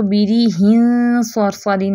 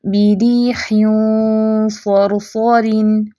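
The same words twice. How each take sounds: First: बिरीहिन सरसरिन said quickly with a light, thin ghunna; the wrong way, ghunna not heavy. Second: बिरीहिन सरसरिन slow, ghunna thick and heavy; heavy ghunna ikhfa. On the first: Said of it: "नहीं पढ़ना". (बिरीहिन सरसरिन बारीक गुन्ना, गलत) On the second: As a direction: draw out बिरीहिन with a full heavy nasal. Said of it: "इख्फा भी मोटा करें". (बिरीहिन सरसरिन मोटे गुन्ने के साथ) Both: Shown as a demonstration.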